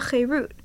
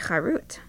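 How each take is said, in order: First: It is said with the vowels meaning freedom. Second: It is said with the vowels meaning engraved. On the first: The tablets bring liberty. "rather read it with the vowels that means freedom" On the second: The tablets were carved. "don't read the phrase with the vowels that mean engraved"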